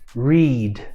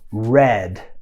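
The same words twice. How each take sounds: First: The vowel is long, like in 'reed'. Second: The vowel is short, like in 'red'. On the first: The action happens in the present. "esse verbo está na forma presente" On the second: The action happened in the past. "esse verbo está no passado"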